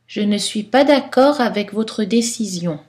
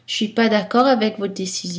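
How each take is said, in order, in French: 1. Beaucoup de voyelles faibles sont prononcées. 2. La plupart des voyelles faibles ne sont pas prononcées. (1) "Style soutenu, style littéraire, poétique" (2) "Style informel"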